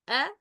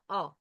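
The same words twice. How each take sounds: First: "A" thin and fronted, as in "cat"; light hamza. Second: "a" dark and backed, like "aw"; heavy hamza. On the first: Teacher stating how hamza should sound, light "A". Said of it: "أنطق صوت الهمزة". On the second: Teacher contrasting the wrong hamza, heavy dark "a". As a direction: say a heavy back "a". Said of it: "is not a". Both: Shown as a demonstration.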